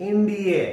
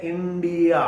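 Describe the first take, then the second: First: इंडिया ending in a short uh, not aa; no final aa. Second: इंडिया ending on a long aa; Indian final aa. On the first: Teacher correcting the Indian way of saying India. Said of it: "no, that's wrong". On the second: Teacher showing the wrong Indian habit. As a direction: finish इंडिया with a full aa. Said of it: "that's wrong". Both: Shown as a demonstration.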